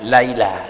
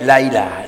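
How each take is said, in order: First: A clear glottal stop comes before 'ilah'. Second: The same.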